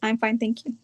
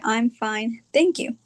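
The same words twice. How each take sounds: First: The words are run together as one unit. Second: The words are said separately, with breaks.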